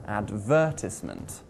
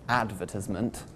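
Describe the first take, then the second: First: "advertisement" stressed on the second syllable, VER. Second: "advertisement" wrongly stressed on the first syllable, AD. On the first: Teacher modelling correct stress for learners, "advertisement" stressed on syllable two. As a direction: put the weight on VER in "advertisement". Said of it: "we place the stress on syllable number two". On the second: Teacher showing learners a mistake, "advertisement" stressed on syllable one. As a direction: put the weight on AD in "advertisement". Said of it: "not on syllable number one". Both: Shown as a demonstration.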